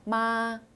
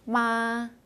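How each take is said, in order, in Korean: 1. 처음부터 끝까지 높고 평평합니다. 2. 처음부터 끝까지 높고 평평합니다.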